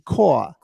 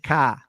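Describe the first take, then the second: First: It is said in a New York accent. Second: It is said in a Boston accent. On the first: "New York say "car,"" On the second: "Bostonians say "car.""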